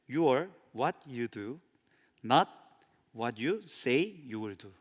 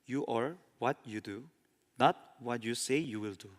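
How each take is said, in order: First: The sentence is read slowly. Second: The sentence is read at a normal pace.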